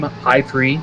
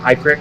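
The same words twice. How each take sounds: First: Prix is pronounced as in Grand Prix. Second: Prix is not pronounced as in Grand Prix. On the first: The speaker calls it right. "I think it's Team High Prix" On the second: The speaker calls it wrong. "not High Prix"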